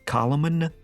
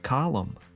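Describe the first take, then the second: First: Every silent letter is sounded out. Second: The silent letters stay silent. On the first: "Gnomi is a gnome who pronounces every silent letter"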